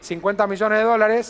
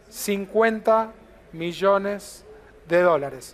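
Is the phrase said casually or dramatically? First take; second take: casually; dramatically. First: It is said quickly and offhandedly. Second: It is said slowly and weightily after a pause. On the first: The figure is mentioned as nothing special. The speaker calls it wrong. "al paso así" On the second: The figure is presented as impressive. The speaker calls it right. "hacer una pausa, abrir las manos así y decirle"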